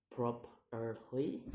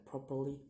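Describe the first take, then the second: First: "properly" slowly in three beats, last rising; syllable by syllable. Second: Said in the usual way. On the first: Shown as a demonstration. Teacher demonstrating syllables, "properly" slow and split. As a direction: pause between each syllable of "properly". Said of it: "three syllables to say". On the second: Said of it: "in ly".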